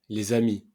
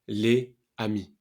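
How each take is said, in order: First: The s is pronounced, linking into the next word. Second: The s is silent, with no link between words. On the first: The speaker calls it right. "Quand tu dis les amis" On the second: The speaker calls it wrong. "au lieu de les amis"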